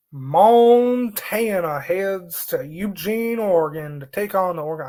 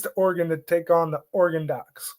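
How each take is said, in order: First: Slow, drawn-out Southern accent. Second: Said in the usual way. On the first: Real, not acted. Sportscaster previewing a game slips into a Southern accent. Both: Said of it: "doing a Southern accent there".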